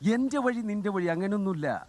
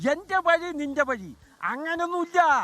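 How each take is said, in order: First: It is said in a plain, standard Malayalam style. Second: It is said with a Palakkad regional accent. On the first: "അദ്ദേഹം പറഞ്ഞ ഒരു famous dialogue" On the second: "പാലക്കാടൻ സ്റ്റൈലില്"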